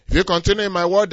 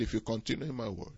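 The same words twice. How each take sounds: First: If you continue in my word, loud, higher, fast; booming proclamation. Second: Softer, quick murmur of If you continue in my word; tossed off softly and fast; quiet aside. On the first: Preacher proclaiming Jesus' condition to the congregation, booming. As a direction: proclaim it to the back row. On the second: Preacher quietly reciting the verse before booming it. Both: Shown as a demonstration. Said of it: "If, there's a condition there".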